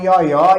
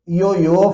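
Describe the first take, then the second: First: The final vowel is open. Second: The final vowel is closed. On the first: This is how people in Africa say it. "falam ioió ... é um acento agudo que você coloca" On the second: This is how people here say it. "não falam ioiô"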